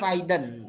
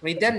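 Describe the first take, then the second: First: The first vowel sounds like 'eye'. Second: The first vowel sounds like 'ih'. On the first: The speaker calls it wrong. "Banyak orang yang salah baca ini Raiden" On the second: The speaker calls it right. "Ini dibacanya Riden"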